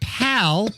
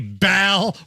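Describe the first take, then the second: First: The word begins with a P sound. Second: The word begins with a hard B sound. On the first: "P A L" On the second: "with a hard B"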